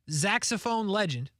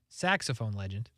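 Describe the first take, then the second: First: Saxophone starts with a z sound. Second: Saxophone starts with an s sound. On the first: The speaker calls it wrong. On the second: The speaker calls it right.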